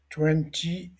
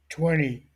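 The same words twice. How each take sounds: First: The word is said in a non-American way. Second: The word is said in an American way.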